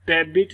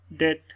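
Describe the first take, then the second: First: "डेबिट" with the b fully voiced; b wrongly sounded. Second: "डेट" with no b, "det"; silent b. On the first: Teacher showing how not to read debt, b sounded. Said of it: "नहीं पढ़ेंगे". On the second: Teacher correcting the reading of debt, b silent. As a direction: go straight from vowel to t in "डेट". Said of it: "बी की sound यहाँ पर silent". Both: Shown as a demonstration.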